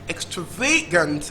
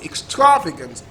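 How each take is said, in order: First: The stress is on the third syllable. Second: The stress is on the second syllable. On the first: "Third syllable" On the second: "Second syllable"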